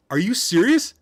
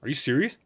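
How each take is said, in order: First: Incredulous. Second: Said in the usual way. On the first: Shown as a demonstration.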